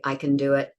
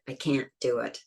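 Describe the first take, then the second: First: "can" light and quick; "I can do it" with a reduced can; unstressed can. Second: "can't" stressed and stopped; "can't" clearly stressed with a throat stop. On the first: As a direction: keep "can" weak. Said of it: "we wouldn't stress the can". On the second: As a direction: lean on "can't". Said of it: "we stress negatives". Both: Shown as a demonstration.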